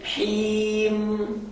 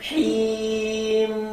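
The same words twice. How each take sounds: Both takes have the same delivery.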